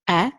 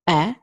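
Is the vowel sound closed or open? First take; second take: open; open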